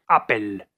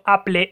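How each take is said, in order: First: The word ends with the sounds 'pel'. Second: The word ends with the sounds 'ple'. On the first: The speaker calls it right. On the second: The speaker calls it wrong.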